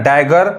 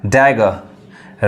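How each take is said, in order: First: डैगर with the final r sounded; डैगर ending on a clear r; wrong sounded-r pronunciation. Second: डैगर with the final r dropped; डैगर ending on an open vowel, r silent; silent-r pronunciation. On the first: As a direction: say डैगर as dai-gar, r pronounced. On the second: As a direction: say डैगर as dai-ga, no r. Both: Shown as a demonstration. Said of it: "वो आर नहीं पढ़ाता है".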